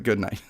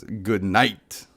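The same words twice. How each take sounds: First: Said in the usual way. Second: Low, soft attempt at Shadow's voice. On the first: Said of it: "I don't know how to do that voice". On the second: Streamer trying Shadow's line for the stream, lightly voiced. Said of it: "Shadow says".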